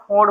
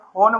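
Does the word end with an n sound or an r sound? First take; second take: r sound; n sound. First: The word ends with a flapped r sound. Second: The word ends with an n sound. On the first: This is how it is said in some regions. "कहीं-कहीं फ़ोन को हम लोग फ़ोड़ बोलते हैं" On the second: This is the usual way most people say it. "जैसे हम लोग फ़ोन बोलते हैं ना"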